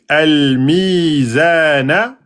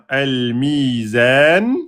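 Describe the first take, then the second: First: The word ends on a short vowel. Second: The word ends on a consonant. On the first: The reading continues without stopping. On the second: The reader stops on this word.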